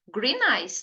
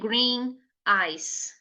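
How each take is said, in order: First: The two words are linked into one sound. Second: The two words are said separately, without linking. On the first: The speaker calls it right. "Não esquece de fazer o link lá do som" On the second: The speaker calls it wrong. "Nada de green eyes. Não, isso daí de jeito nenhum"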